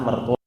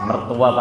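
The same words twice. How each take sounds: First: The word ends with an 'o' vowel. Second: The word ends with an 'a' vowel. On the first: This is the Javanese form. "mertua pakai O" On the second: This is the standard Indonesian form. "Mertua pakai A"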